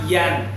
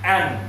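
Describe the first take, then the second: First: It begins with a y sound. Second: It begins with a plain vowel. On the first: The speaker calls it wrong. "It's not yan" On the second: The speaker calls it right.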